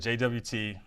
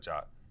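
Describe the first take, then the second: First: Each letter of the acronym is said separately. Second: The acronym is said as one short word. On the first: "It's a J W T" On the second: "some people pronounce it J O T"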